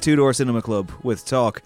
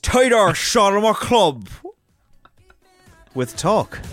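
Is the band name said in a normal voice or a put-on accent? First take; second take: normal; put-on accent. First: It is said in the speaker's normal accent. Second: It is said in an exaggerated put-on accent.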